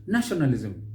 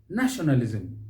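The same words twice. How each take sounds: The two takes are said the same way.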